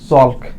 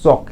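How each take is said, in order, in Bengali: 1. শব্দটিতে L-এর ধ্বনি উচ্চারিত হয়। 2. শব্দটিতে L-এর ধ্বনি উচ্চারিত হয় না। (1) "চ ল ক" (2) "কিন্তু উচ্চারণ হবে চক, এই এলটা অনুচ্চারিত থাকবে"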